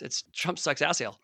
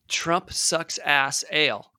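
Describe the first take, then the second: First: It is said very fast. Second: It is said at a normal speed.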